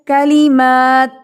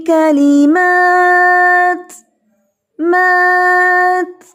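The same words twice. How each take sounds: First: کلمات with the final ta swallowed, slow and louder; imitating the student's mistake. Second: کلمات with the final ta aspirated and audible, very slow, higher and louder; clear breathy ta. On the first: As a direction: say کلمات as "kalima", dropping the ta. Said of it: "زہا نے پڑھتے ہوئے کیا کیا؟". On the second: Shown as a demonstration. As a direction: let the hams breath of ta in کلمات be heard. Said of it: "تا پڑھا گیا ہے".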